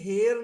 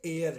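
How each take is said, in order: First: The word begins with an h sound. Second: The word begins with a vowel sound. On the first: The speaker calls it wrong. "ये हेयर नहीं है" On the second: The speaker calls it right. "इसका pronunciation जो है वो ए से होता है"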